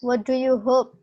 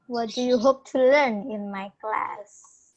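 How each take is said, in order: First: Said in the usual way. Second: Slowed down, each word spelled out; slow clear repeat. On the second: Shown as a demonstration. Teacher repeats the question slowly for a student.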